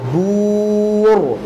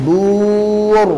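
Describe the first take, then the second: Both takes have the same delivery.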